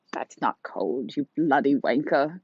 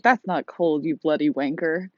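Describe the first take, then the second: First: Put-on slow, drawn-out British old lady; old woman British accent. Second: Said in the usual way. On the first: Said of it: "That's my old woman British accent". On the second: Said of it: "in England, they probably call me".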